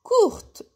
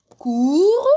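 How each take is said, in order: First: "courte" pitched high with the T released; sounded final T. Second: "Cour" held loud, ending on the R; silent final T. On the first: Teacher contrasting feminine with masculine, "courte" with its T pronounced. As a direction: say "courte" closing on a clear T. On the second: Teacher contrasting masculine with feminine, "Cour" without the T. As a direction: say "Cour" with no T at all. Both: Shown as a demonstration. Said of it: "هاد لو تي وليت ننطقه".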